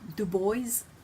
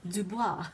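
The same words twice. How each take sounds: First: The name is pronounced the English way. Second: The name is pronounced the French way.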